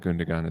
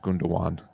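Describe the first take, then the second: First: The middle G is pronounced. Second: The middle G is silent. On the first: The speaker calls it wrong. "The City fans that I hear say" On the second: The speaker calls it right. "That G is silent"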